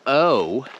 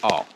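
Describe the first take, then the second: First: O drawn out as "oh"; long, rounded "oh" for O; English long O. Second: O as a short "aw"; O kept open, "aw"; short foreign O. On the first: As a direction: glide O from oh toward oo. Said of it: "the English version O is much longer". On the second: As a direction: say O like "aw", without a glide. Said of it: "the O is very short". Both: Shown as a demonstration.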